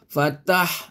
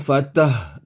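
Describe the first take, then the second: First: The h is a breathy, hissing sound. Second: The h comes from deep in the chest. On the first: The speaker calls it right. "Ini ha pedas" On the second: The speaker calls it wrong. "Itu ha dada"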